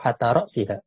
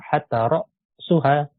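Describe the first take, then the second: First: The noun is read with the genitive ending. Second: The noun is read with the nominative ending. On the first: "atau majrur" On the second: "Bisa marfu"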